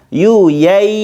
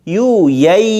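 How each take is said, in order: The two takes are said the same way.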